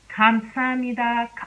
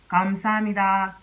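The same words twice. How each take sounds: First: The first consonant is a hard K sound. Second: The first consonant is a voiced G sound. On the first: "if you were to pronounce this word using the real K sound" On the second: "if you were to use a G sound to pronounce this"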